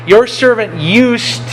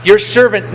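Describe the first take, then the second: First: "your servant used" said slowly and higher, leaning on "your servant"; stress on your servant. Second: Said in the usual way. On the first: Shown as a demonstration. Preacher flags David's line to the congregation, slow stressed "your servant used". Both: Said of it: "notice this line".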